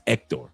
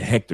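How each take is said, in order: First: The H at the start is silent. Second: The H at the start is pronounced. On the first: The speaker calls it right. "The H is silence" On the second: The speaker calls it wrong. "it's not even Hector"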